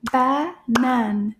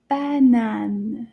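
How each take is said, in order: First: "Banane" in two separate, clapped-out beats; "Banane" split evenly, a gap between syllables. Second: Said in the usual way. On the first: Shown as a demonstration. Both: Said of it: "clap the syllables together".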